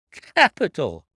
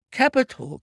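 First: Loud, less high second cry; emphatic repeat. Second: Very high, loud burst of approval; delighted cry. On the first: Inspector repeating his praise to Holmes, loud emphatic cry. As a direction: hammer the praise home once more. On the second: Inspector applauding Holmes's deduction, high excited cry. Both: A narrator's reading. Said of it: "cried the inspector".

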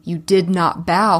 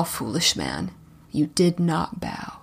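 First: Put-on loud accusing old crone; a crone's harsh rebuke, louder. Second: Low, soft crone's menace; the crone repeats it quietly, lower. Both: A narrator's reading. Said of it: "came a crone voice saying".

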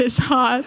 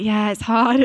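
First: It's hard through a laugh. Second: Said in the usual way. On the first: Retold or imitated. Dad on the hospital bed, laughing it off.

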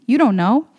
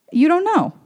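First: Said in the usual way. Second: "You don't know" jumps much higher, pressing on know; emphatic repeat. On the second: Shown as a demonstration. To the listener, emphatic insistence on "You don't know". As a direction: hit "know" high and hard this time. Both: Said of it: "You don't know what your impact is".

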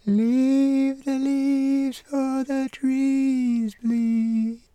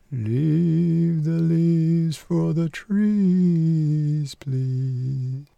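First: Very high, slow falsetto chant. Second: Persimmon tree voice. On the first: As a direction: sing it in a thin high falsetto. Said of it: "That high-pitched falsetto belongs to the pawpaw tree". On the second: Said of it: "That one there belongs to the persimmon". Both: Acted.

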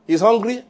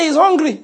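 First: Said in the usual way. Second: Martha complaining. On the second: Acted. Preacher voices Martha's complaint.

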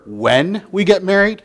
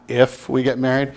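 First: "when" said firmly and sure; stress on when. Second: "if" said low and softer; stress on if. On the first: Preacher contrasting fiance's words, firm "when". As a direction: lean on "when" as the hopeful word. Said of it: "don't you want to hear". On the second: Preacher contrasting fiance's words, deflated "if". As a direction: drop "if" quietly, doubtful. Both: Shown as a demonstration.

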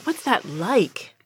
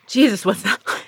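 First: Slow, softer sigh of a question; slow wistful aside. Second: Said in the usual way. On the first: Retold or imitated. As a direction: drag it out, quietly envious. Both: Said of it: "I'm like".

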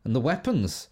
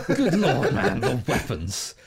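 First: Said in the usual way. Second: Slowed down, laughing through it. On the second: Real, not acted. Host laughing about the game's weapons. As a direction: savour the words while laughing.

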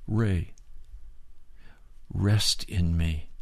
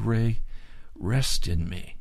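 First: Soft, slow and tender, a touch quieter; quiet, slow, gentle reassurance; kind and gentle. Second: Kind and gentle. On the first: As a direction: speak his name gently, like a loving father. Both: Retold or imitated. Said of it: "in a very kind and gentle voice".

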